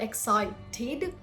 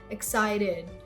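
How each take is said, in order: First: The T sound is hard and crisp. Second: The T sound is soft and light. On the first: The speaker calls it wrong. "So it's not excited" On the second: The speaker calls it right. "Very soft"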